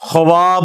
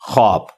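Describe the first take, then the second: First: A 'w' sound follows the 'kh' sound. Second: No 'w' sound follows the 'kh' sound. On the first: This is how the word is spelled. "लिखने में ख्वाब होता है" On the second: This is how the word is actually read. "पढ़ने में ख्वाब"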